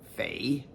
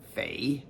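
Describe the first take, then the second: First: The syllable is said with the third tone. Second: The syllable is said with the third tone.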